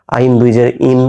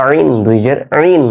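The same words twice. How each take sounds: First: Final "ইন" as a simple vowel, without throat sound; "আইন দুই জের ইন" with a plain glottal onset on "ইন"; ayn flattened to hamza. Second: "আইন দুই জের আইন" with ayn, not hamza; correct Arabic ayn. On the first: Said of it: "এরকম যেন না হয়". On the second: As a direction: draw out "আইন" with a pharyngeal ayn, ending on throaty "in". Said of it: "হামজা দুই জের ইনের মতো করে দিবেন না". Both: Shown as a demonstration.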